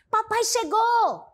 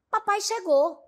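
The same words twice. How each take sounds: First: It is said with a joyful tone. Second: It is said slightly lower, sounding surprised. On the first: The speaker is happy about the arrival. "eu queira imprimir o sentido de alegria" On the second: The arrival was unexpected. "um tom de surpresa, talvez um pouco mais baixo"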